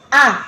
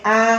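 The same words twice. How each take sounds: First: The sound starts with a tense, held-back push. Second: The sound starts loosely without any held pressure. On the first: The speaker calls it right. "Kayak ada tekanan kita mengucapinnya itu susah" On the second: The speaker calls it wrong. "nggak boleh a"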